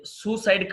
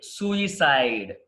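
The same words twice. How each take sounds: First: సూసైడ్ in two syllables; wrong pronunciation. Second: సూసైడ్ slowly, with an "i" after "soo"; correct pronunciation. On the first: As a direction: say సూసైడ్ as "SOO-side". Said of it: "కాదండి". (సూసైడ్ రెండు భాగాలుగా తప్పుగా) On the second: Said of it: "సూసైడ్ కాదండి". (సూసైడ్ నిదానంగా "సూ-ఇ-సైడ్" అని) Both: Shown as a demonstration.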